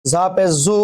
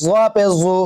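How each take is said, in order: First: "জু" as a thin, buzzing zu. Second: "জু" as a heavy, dark zu; thick z. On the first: Teacher contrasts za with zwa, thin z. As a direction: keep the "জ" of "জু" light as z. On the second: Teacher contrasts zwa with za, thick z. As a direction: fatten the "জ" of "জু". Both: Shown as a demonstration. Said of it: "একটা মোটা একটা পাতলা".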